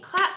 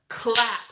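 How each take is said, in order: First: It sounds light and asking, like a request. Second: It sounds deep and heavy, like a command. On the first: The listener is being asked to join in. The speaker calls it wrong. "you don't want to sound like, you know, hey, clap. You want to clap with me?" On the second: The listener is being ordered to do it. The speaker calls it right. "You want to be like, clap"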